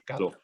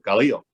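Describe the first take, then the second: First: The i is silent, giving two syllables. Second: The i is sounded as its own vowel. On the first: The speaker calls it right. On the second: The speaker calls it wrong.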